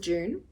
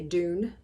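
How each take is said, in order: First: The word begins with a 'j' sound. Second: The word begins with a plain 'd' sound. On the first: This is how Australians say it. "as we call it in Australia" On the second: This is how Americans say it. "I know Americans say Dune"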